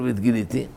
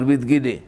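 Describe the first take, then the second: First: The reading he rejects: "והתגיליתי" with the full ending -iti; wrong reading. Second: The right form "והתגילי", ending cut short to -ili; teacher gives the proper form "והתגילי" after rejecting the wrong one; correct reading. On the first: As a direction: reads the wrong form "והתגיליתי" aloud to a student, doubtfully. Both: Shown as a demonstration. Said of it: "צריך לומר".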